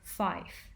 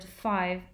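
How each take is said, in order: First: The word ends in an f sound. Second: The word ends in a v sound. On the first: "sometimes gets replaced by f sound" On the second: "the voiced fricative v"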